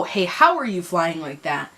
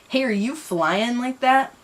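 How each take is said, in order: First: Said in the usual way. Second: The line read wrong first, higher and slow; misread. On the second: Shown as a demonstration. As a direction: stumble over the misread question.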